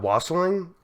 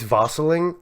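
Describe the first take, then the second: First: The word begins with a W sound. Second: The word begins with a V sound. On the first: "you pronounce the W" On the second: "W's are V"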